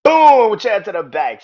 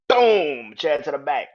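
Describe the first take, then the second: First: "Boom!" yelled much higher and louder, then "Chair to the back" called out; big shouted "Boom!". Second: Excited play-by-play. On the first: Reliving the chair shot for listeners, roaring "Boom!". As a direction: belt out "Boom!" like a ringside crash. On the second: Reenacting a chair shot. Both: Retold or imitated.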